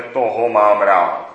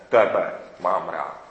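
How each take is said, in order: First: "Toho" hit loud and drawn out; slow phrase, punching the word "Toho"; stress on Toho. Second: "Tebe" set apart, low and slow; slow, lower phrase leaning on "Tebe"; stress on Tebe. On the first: Someone singling out whom they love, loud stress on "Toho". Contrasts saying whom one loves. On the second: Someone telling the loved one directly, slow stress on "Tebe". Contrasts with direct address to you. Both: Shown as a demonstration.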